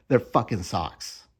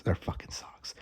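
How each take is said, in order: First: Said in the usual way. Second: Breathy whispered exasperation, no voice at all. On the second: Shown as a demonstration. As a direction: whisper it like a fed-up secret.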